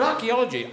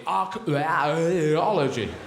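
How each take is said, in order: First: Said in the usual way. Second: "archaeology" with the middle vowels stretched into a slow warble; smeared middle vowels. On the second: Shown as a demonstration. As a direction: draw out the vowels inside "archaeology" absurdly. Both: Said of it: "three bloody vowels in the middle".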